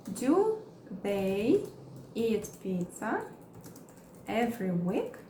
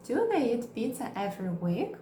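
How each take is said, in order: First: Slow, chunked with pauses; slow broken-up teaching read; slow model question. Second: Said in the usual way. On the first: Shown as a demonstration. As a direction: say it slowly piece by piece. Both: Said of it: "Vamos criar mais exemplos".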